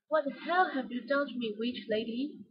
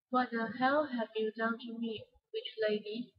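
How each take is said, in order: First: "hell" punched a little; emphasize "hell" with some feeling; mild emotional stress on "hell". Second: Said in the usual way. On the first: Shown as a demonstration. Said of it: "have stressed words and emotion". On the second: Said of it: "When we read a sentence like this".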